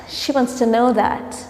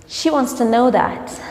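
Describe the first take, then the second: The two takes are said the same way.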